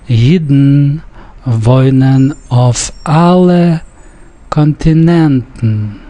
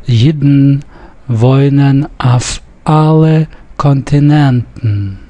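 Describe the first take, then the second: First: Slow Yiddish reading with auf said as "off"; dialectal "off". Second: Careful reading with auf said as "af"; standard Yiddish. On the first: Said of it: "Note I said off instead of af". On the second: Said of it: "with the standard Yiddish in mind". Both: Shown as a demonstration.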